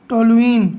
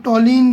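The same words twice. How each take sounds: First: "टोलुइन" with the u-i vowels both sounded; stronger, careful "टोलुइन", keeping the middle u; standard pronunciation. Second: "टोलिन" shortened to two syllables; "टोलिन" with the middle u dropped; common variant pronunciation. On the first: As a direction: say "टोलुइन" in full, to-lu-een. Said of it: "ये इसका standard name है". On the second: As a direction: say "टोलिन" as to-leen, without the u. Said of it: "बहुत से लोग टोलिन भी बोलते हैं". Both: Shown as a demonstration.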